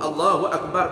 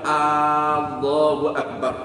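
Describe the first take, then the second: First: The first vowel of Allahu is kept short. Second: The first vowel of Allahu is drawn out long. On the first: It states that Allah is great. The speaker calls it right. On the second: It turns into a question: is Allah great? The speaker calls it wrong.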